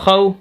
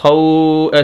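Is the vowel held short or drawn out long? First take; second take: short; long. First: The vowel is short and not drawn out. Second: The vowel is drawn out long. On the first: The speaker calls it right. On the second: The speaker calls it wrong.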